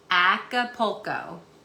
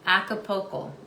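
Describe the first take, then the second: First: The word is said slowly. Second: The word is said at normal speed.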